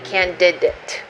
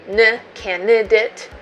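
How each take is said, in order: First: The middle d is clearly pronounced. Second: The middle d is dropped, sounding like n. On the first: The speaker calls it right. "you want to say d-d-d-d-d-d-d" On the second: The speaker calls it wrong. "You don't want to say n candidate"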